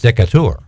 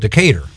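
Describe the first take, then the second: First: It is said with a French pronunciation. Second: It is said with an English pronunciation.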